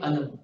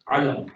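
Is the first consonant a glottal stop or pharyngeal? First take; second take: glottal stop; pharyngeal. First: It begins with a plain glottal stop sound. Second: It begins with a throaty pharyngeal ain sound. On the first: It means pain. "what if I say alam with hamza" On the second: It means a sign. "It can also mean a sign"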